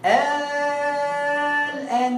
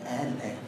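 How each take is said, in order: First: "آه الآن" with the first vowel held very long on one note; sustained recited vowel opening "آه الآن"; long madd recitation. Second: "آه الآن" very soft and low, without the long vowel; hushed, brief tasheel take of "آه الآن"; short eased hamza. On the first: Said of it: "يعني تقول". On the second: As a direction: glide quickly over the second hamza in "آه الآن". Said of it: "أو". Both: Shown as a demonstration.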